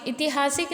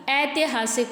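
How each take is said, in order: First: ऐतिहासिक said quickly as "itihaasik"; इ opening. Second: ऐतिहासिक said as "aitihaasik"; ऐ opening. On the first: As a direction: start ऐतिहासिक with short "i". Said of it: "ऐतिहासिक नहीं होता". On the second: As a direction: start ऐतिहासिक on an open "ai". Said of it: "तो ए लिखेंगे". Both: Shown as a demonstration.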